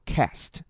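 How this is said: It has a flat front 'a' vowel. "美音叫做"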